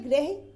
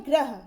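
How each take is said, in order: First: ग्रह as greh; contrasted pronunciation. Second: Said in the usual way. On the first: Shown as a demonstration. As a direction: give ग्रह an e vowel before the h. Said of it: "ये होता है". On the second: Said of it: "और ये होता है".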